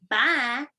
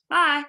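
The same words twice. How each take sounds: First: Mock Texas twang on Bye; Texas accent bye. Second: Drawn-out Georgia drawl on Bye; Georgia Southern bye. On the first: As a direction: imitate a Texan saying Bye. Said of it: "you sounded like you were from Texas or something". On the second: Shown as a demonstration. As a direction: say Bye the Georgia way, warm and loud. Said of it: "we say it like how I just said it".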